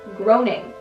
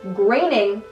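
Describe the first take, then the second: First: The name sounds like the word 'groaning'. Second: The name does not sound like 'groaning'. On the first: The speaker calls it wrong. "not groaning" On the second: The speaker calls it right. "that's how you say his last name"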